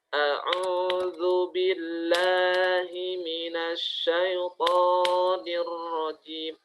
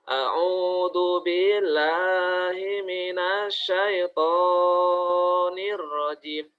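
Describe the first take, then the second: First: The long vowels are held for a short, set beat. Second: The long vowels are stretched out far too long. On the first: The speaker calls it right. "Itu dua harokat" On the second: The speaker calls it wrong. "ini bacaannya kepanjangan"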